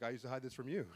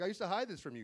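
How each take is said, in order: First: Low, soft dad's reply; imitating dad. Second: His own side, pitch arched on "hide"; retold own line. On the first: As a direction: echo it back lower and quieter, as dad. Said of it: "He's like". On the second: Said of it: "I'm like".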